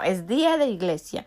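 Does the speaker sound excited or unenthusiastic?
excited. It is said with lively excitement. Going to church feels like a privilege. The speaker calls it right. "en lugar de decir: wow"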